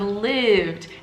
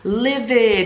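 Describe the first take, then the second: First: The ending adds no extra syllable. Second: The ending is said as an extra syllable. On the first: The speaker calls it right. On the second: The speaker calls it wrong.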